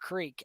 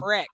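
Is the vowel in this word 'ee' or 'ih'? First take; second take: ee; ih. First: The vowel is long, like 'ee'. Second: The vowel is short, like 'ih'. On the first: The speaker calls it right. "instead of creek" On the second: The speaker calls it wrong. "some people also say crick"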